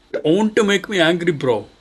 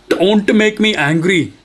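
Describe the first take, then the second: First: Mock angry. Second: Higher, louder mock threat, slow; hammed-up warning; mock angry. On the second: Streamer warning the computer to download, mock angry.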